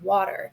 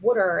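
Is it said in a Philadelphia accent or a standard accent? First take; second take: standard; Philadelphia. First: It is said in a standard accent. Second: It is said in a Philadelphia accent.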